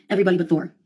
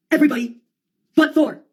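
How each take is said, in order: First: Said in the usual way. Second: Raised, punched-out punchline; theatrical outburst; emphatic exclamation. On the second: Acted. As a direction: call it out high and emphatic. Emphatic punchline, then repeated lower.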